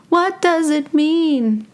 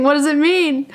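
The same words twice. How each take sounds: First: High, slow mock wonder; slow, playful high-pitched pondering; drawn-out questioning. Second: High-pitched quick mock wonder; puzzled question in a high playful voice. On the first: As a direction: stretch every word out in a high voice. Repeats question, drawn out for effect. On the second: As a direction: ask it high, at a normal clip. Mock pondering of an itchy nostril.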